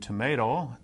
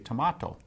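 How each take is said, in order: First: It is said the American way. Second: It is said the South African way. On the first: "as we would in the U.S" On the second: "they say tomato"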